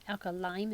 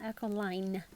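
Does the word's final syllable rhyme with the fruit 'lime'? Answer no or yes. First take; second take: yes; no. First: The last syllable sounds like the fruit lime. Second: The last syllable does not sound like lime. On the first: The speaker calls it right. "is in the fruit lime" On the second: The speaker calls it wrong. "not alkaline"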